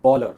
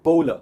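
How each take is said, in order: First: The first syllable sounds like 'ball'. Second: The first syllable sounds like 'bowl'. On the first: The speaker calls it wrong. "not bowler ... पर वो बॉलर नहीं है" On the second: The speaker calls it right. "It's called bowler"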